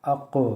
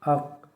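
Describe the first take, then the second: First: The final consonant is released with an echoing bounce. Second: The final consonant stops flat without an echo. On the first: "कलकला के साथ" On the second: "बग़ैर कलकला के"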